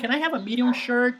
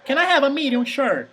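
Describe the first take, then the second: First: It is said in an American English accent. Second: It is said in an exaggerated non-American accent. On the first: The shop assistant could not understand it. The speaker calls it wrong. "the problem was I was speaking American English" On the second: The message is clear to the listener. The speaker calls it right. "I'm exaggerating here"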